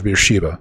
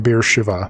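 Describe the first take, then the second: First: The last syllable starts with a b sound. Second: The last syllable starts with a v sound. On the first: The speaker calls it wrong. "I'm probably butchering that" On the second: The speaker calls it right. "so not ba, but va"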